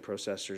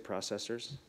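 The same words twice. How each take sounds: First: The word is said with a Canadian pronunciation. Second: The word is said with a non-Canadian pronunciation. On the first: "I keep saying processors. I'm showing my Canadian" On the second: "Should I say processors?"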